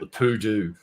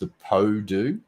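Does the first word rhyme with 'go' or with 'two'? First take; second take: two; go. First: The first word has an 'oo' vowel. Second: The first word has an 'oh' vowel. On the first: This is a joking nickname. "We used to just call it the Poo Do" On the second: This is the name as the owners said it. "It was pronounced the Po Do"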